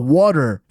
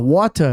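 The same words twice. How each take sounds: First: It is said in an American accent. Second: It is said in a British accent.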